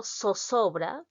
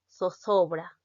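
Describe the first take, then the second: First: Zozobra said with plain s sounds, sosobra; Peruvian pronunciation. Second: Zozobra said with lisped th sounds, thothobra; Spanish pronunciation. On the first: Teacher demonstrating how a Peruvian says zozobra, with s sounds. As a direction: say zozobra the Latin American way, every z as s. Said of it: "si yo digo zozobra como peruana". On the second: Teacher demonstrating how Spaniards say zozobra, with th sounds. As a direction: say zozobra like a Spaniard, each z as th between the teeth. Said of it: "los españoles que dicen zozobra". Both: Shown as a demonstration.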